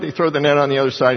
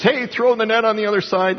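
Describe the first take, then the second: First: Said in the usual way. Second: Higher, called out across the water; calling out. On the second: Retold or imitated. Man on the beach hails the fishermen, mock call-out. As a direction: hail them from the beach, pitched up. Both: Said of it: "cries out to him and says".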